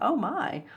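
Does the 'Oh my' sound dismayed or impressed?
impressed. It sounds impressed, like something exciting.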